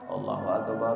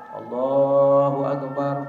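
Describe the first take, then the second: First: It is said quickly and in a low voice. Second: It is said slowly and drawn out. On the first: This is the call that starts the prayer. "Kalau qomat ... Cepat dan rendah suaranya" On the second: This is the first call to prayer. "Enggak pelan-pelan kalau azan kan"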